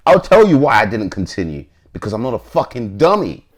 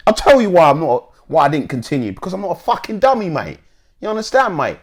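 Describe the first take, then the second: First: Said in the usual way. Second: High-pitched, put-on Cockney; Cockney accent. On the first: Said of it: "Let me reread that". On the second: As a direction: quote it in an exaggerated Cockney accent. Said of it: "had to put on my Cockney accent".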